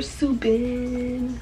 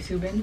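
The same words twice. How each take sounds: First: The name is said in an exaggerated, drawn-out way. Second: The name is said plainly, without exaggeration. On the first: "I say it like that when I'm exaggerating it" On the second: "I just say Subin"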